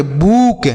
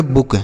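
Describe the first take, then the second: First: बुक stretched into "boook" with a long oo; wrong long vowel in बुक. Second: बुक with a short, quick oo as in English "book"; short vowel in बुक. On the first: Teacher showing children how not to read it, बुक with long oo. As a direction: draw out the vowel of बुक as a mistaken reading. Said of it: "इसे ऐसे नहीं पढ़ेंगे". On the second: Teacher giving children the correct reading, बुक with short oo. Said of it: "छोटा ओ की मात्रा". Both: Shown as a demonstration.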